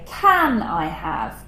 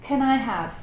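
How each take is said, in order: First: 'Can' is stressed with a full vowel. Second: 'Can' is unstressed and reduced to a schwa. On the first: "but the stress is different" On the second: "I said the unstressed version, which has the schwa"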